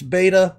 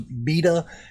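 First: The word is said with an American pronunciation. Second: The word is said with a British pronunciation. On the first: "for me as an American, it's beta" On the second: "or at least in England, it is beta"

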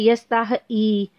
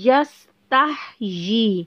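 First: The final vowel is split off without a clear y-glide. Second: The final syllable is joined with a clear y-glide. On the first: The speaker calls it wrong. "आपने ये नहीं कहना यस्ताह ई" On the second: The speaker calls it right. "य को आपने क्लियर करना है"

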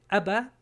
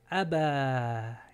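First: The final vowel is short. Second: The final vowel is drawn out long. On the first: The speaker calls it wrong. "No se dice Abba" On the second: The speaker calls it right. "es nomás Abba y se extiende la A"

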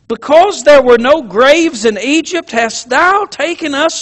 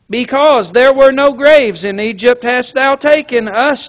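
First: It is said with feeling and disgust. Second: It is said flatly, without feeling. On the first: The speaker calls it right. "I think they said it with feeling. I think they said it with a little bit of disgust" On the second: The speaker calls it wrong. "I don't believe tonight they said"

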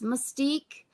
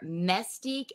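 First: The first syllable sounds like 'muss'. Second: The first syllable sounds like 'mess'. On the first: "is it M-U-S-S Mystique?" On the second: "M-E-S-S Stique?"

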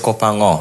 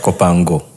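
First: The G is not pronounced as a hard sound. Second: The G is pronounced as a hard sound. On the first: The speaker calls it right. "The G is not there. ... That's why it's Kopango" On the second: The speaker calls it wrong. "not Kopango"

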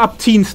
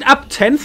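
First: The word ends with a 'teens' sound. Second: The word ends with a 'tenth' sound. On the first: The word is said the way it is usually heard. "I've always heard it as up teens time" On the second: The word is said the way it is spelled. "it's spelled as up 10th"

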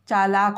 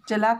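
First: The first vowel is long. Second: The first vowel is short. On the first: The speaker calls it right. "चालाक होता है" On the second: The speaker calls it wrong. "चलाक नहीं होता"

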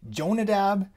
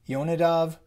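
First: It is said in English, starting with j. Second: It is said in Hebrew, starting with y. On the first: "I'm gonna say it the really English way" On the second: "That's how you say it in Hebrew"

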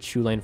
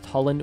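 First: The name starts with a familiar English sound. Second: The name starts with a sound unusual in English. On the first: This is the form most people are familiar with. "what most people are more familiar with" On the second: This is the form the speaker believes is correct. "with an inflection at the beginning that's not normal to English speakers"

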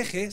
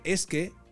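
First: The s is dropped, giving a blended eje sound. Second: The s is clearly pronounced before que. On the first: The speaker calls it wrong. "estás diciendo eje" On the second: The speaker calls it right. "se dice es que"

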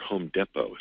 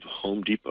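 First: The name is said in a fancy, affected way. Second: The name is said in an ordinary way.

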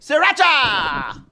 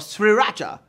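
First: The first R sound is dropped. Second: The first R sound is pronounced.

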